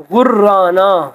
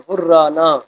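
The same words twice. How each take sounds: First: غرانہ said very slowly with a long doubled r, ghur-raana. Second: Said in the usual way. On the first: Shown as a demonstration. Teacher showing the shadda to students, slow doubled r. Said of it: "یہاں پہ شد ہے". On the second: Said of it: "تشدید کی علامت ہے".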